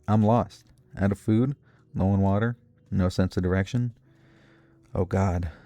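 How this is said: It is read in a cheery, upbeat tone. The speaker calls it wrong.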